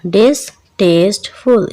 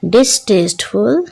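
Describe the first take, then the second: First: डिसटेस्टफुल slowly split as डिस-टेस्ट-फुल; syllable by syllable. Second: Said in the usual way. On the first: Shown as a demonstration. Teacher breaking डिसटेस्टफुल into three syllables, syllable by syllable. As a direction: pull डिसटेस्टफुल apart into three slow syllables. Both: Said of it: "इसके तीन syllables हैं".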